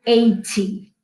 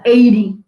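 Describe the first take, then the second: First: Eighty with a clear t, ei-tee. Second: Eighty said louder with a tapped t, like eidy; flapped eighty. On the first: Teacher to students, giving the clear-t eighty as the alternative. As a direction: say eighty with a crisp t. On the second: Teacher to students, showing the flapped eighty. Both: Shown as a demonstration.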